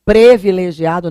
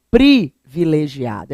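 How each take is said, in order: First: "Privilegiado" as "previlegiado"; stressed PRE opening "Privilegiado"; pronúncia errada. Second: "privilegiado" slow, with a clear PRI; pronúncia correta. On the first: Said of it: "não". ("Privilegiado" com E: "PRE-vilegiado") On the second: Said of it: "é com I". ("privilegiado" com I claro: PRI-vilegiado) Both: Shown as a demonstration.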